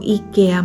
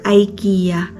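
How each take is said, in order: First: It is pronounced the way Finns say it. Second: It is pronounced the way Filipinos say it. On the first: This is how it is called locally. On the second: This is how it is called back home. "sa atin ang tawag"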